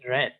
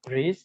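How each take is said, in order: First: The word is said in its past-tense form. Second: The word is said in its present-tense form. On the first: The action happened in the past. "in the past we say read" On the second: The action happens now or habitually. "In present we say read"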